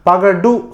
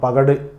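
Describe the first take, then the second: First: The final u vowel is said fully. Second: The final u vowel is shortened. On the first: The speaker calls it wrong. "பகடுன்னு சொல்ல மாட்டோம்" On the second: The speaker calls it right. "பகடு சொல்லணும்"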